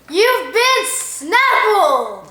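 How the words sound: It is said with lively enthusiasm.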